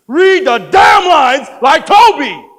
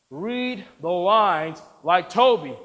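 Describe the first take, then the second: First: Slow, high, roaring order; furious shout. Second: Slow, measured command; insistent order. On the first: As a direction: bellow each word in fury. Director loses patience. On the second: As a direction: spell it out slowly and firmly. Director insists, word by word. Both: Acted.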